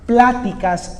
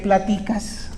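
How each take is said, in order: First: The stress is on the first syllable. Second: The stress is on the second syllable. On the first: It refers to conversations. "acento en pla" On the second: It refers to what you are talking about. "otra cosa muy diferente"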